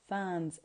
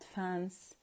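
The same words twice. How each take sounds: First: The word ends with a buzzing z sound. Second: The word ends with a hissing s sound. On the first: The speaker calls it right. "you have to pronounce it as fans" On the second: The speaker calls it wrong. "not fans"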